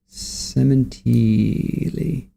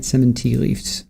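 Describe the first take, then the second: First: Very slow, stretched "Sementili"; drawn-out name. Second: Said in the usual way. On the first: Shown as a demonstration. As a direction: draw out every syllable of "Sementili". Host mulls the name Sementili.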